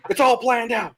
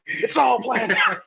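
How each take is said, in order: First: Said in the usual way. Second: Laughing shout. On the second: Shown as a demonstration. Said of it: "repeated louder laughing".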